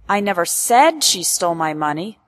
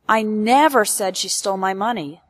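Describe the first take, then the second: First: The stress falls on the word said. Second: The stress falls on the word never. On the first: It was thought or implied, not spoken. "implies that I never said it out loud, but perhaps I thought, implied" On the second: It did not happen even once. "emphasizes that this event ... never happened, not even once"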